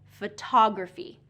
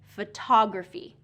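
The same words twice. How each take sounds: First: The stress is on the second syllable. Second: The same.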